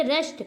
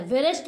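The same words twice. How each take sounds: First: रेस्ट starting on R; silent W. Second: वेरेस्ट with W sounded, "ve-rest"; wrong pronunciation. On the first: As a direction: drop the W in रेस्ट. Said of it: "वेरेस्ट नहीं पढ़ते". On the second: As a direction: add "ve" before the R in वेरेस्ट. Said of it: "नहीं पढ़ते हैं". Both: Shown as a demonstration.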